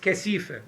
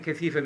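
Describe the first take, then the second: First: The middle consonant is an s sound. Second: The middle consonant is a th sound.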